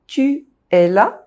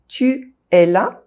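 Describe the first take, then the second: First: There is a pause between the two vowels. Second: The same.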